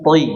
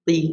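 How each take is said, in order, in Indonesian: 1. Suku kata itu diucapkan berat dan penuh. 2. Suku kata itu diucapkan tipis dan ringan. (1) "tapi toi" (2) "Nggak dibaca ti"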